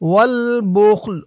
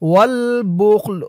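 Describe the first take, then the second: The two takes are said the same way.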